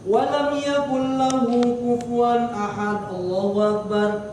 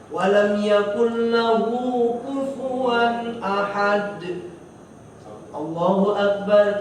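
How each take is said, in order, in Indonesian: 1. Frasa terakhir diikuti tanpa jeda. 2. Ada jeda pendek sebelum frasa terakhir. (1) "itu namanya nggak pakai berhenti" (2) "Jadi ada berhentinya sedikit"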